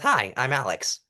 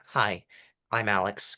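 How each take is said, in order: First: It is said warmly, with a smile. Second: It is said flatly, without a smile.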